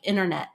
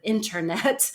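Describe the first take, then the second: First: The T after the N is dropped. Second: The T after the N is clearly pronounced. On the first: The speaker calls it wrong. "or where we just drop it, like internet" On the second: The speaker calls it right. "instead of internet"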